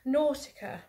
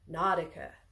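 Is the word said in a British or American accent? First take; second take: British; American. First: It is said in a British accent. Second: It is said in an American accent.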